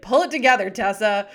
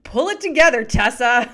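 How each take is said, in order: First: Playful imitation of the stern mother; mock stern mom. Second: Loud, high stern mother scolding; mock-stern mom telling her daughter off. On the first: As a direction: quote the mom as a private joke. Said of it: "We'll look at each other and be like". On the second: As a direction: snap at the kid with a laugh under it. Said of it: "she looks down at her daughter and she goes".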